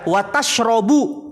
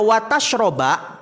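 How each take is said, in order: First: The verb ends with the vowel u. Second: The verb ends with the vowel a. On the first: Do not eat fish, but do drink milk. "kalau maknanya eh dibaca watashrobu" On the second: Do not eat fish and drink milk together. "kalau dibaca watashroba"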